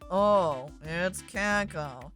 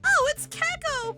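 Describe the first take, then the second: First: It is said in a flat, unexcited way. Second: It is said with lively, excited energy. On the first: "All I have to do is read it differently" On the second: "That is way more exciting. I jump up and down with excitement"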